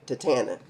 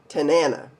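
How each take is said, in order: First: The second syllable begins with a t sound. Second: The second syllable begins with an n sound. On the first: The speaker calls it wrong. "I always say Tatana" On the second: The speaker calls it right. "I didn't say it that time"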